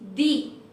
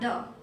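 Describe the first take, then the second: First: The word ends in a long 'ee' vowel. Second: The word ends in a short 'uh' vowel. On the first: The speaker calls it right. "If it starts with a vowel, then we pronounce it as the" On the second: The speaker calls it wrong. "not the"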